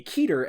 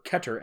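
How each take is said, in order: First: "Keter" with a long EE, KEE-ter; "Keter" pronounced KEE-ter. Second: "Keter" with a short E, KET-er; "Keter" pronounced KET-er. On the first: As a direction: say "Keter" as KEE-ter, stress on the first syllable. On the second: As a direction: say "Keter" as KET-er, stress on the first syllable. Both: Shown as a demonstration. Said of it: "or Keter S C P".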